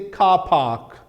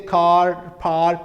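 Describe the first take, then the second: First: The r sounds are dropped, non-rhotic style. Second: The r sounds are pronounced, rhotic style.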